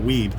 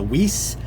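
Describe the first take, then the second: First: The word ends with a b sound. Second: The word ends with an s sound. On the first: The speaker calls it wrong. "I pronounced it Weeb ... I had that one wrong" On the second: The speaker calls it right. "that is pronounced as W E I S S, so Weiss"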